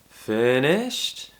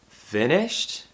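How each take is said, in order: First: The voice rises at the end. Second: The same.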